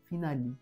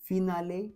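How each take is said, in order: First: The final vowel sounds like 'ee'. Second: The final vowel sounds like 'ay'. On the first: The speaker calls it right. "ईचा उच्चार ई असा होणार आहे" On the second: The speaker calls it wrong. "फिनाले नाही"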